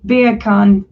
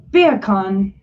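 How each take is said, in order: First: English accent. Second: Jamaican accent. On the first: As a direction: say Beer can like an Englishman. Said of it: "when you say beer can with an English accent". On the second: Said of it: "sounds like you're saying bacon with a Jamaican accent". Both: Shown as a demonstration.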